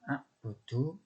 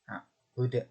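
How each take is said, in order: First: The word ends with a final short vowel. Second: The word ends on a bare consonant. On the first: The reading continues without stopping. "Yang bacaannya a'budu" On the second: The reading stops at this word. "dibaca a'bud"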